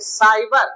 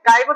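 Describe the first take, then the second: First: The word begins with an s sound. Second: The word begins with a k sound. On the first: The speaker calls it right. "सा उच्चारण लेंगे" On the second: The speaker calls it wrong. "काइबर नहीं पढ़ेंगे"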